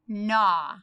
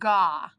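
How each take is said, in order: First: The word begins with an N sound. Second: The word begins with a hard G sound. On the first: The speaker calls it right. "Let's make it so the G is silent" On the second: The speaker calls it wrong. "Let's make the N silent"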